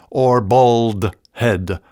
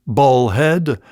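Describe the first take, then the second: First: "bald head" slow and clear, "bald" with a full L; "bald head" spoken slowly, word by word; bald head, spelled out. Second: "bald head" said quickly, almost "bohead"; "bald head" run together in a Scots slur. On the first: Spelling out "bald head" clearly for listeners. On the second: Slurring "bald head" while explaining the Scots word. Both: Shown as a demonstration. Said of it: "which can be".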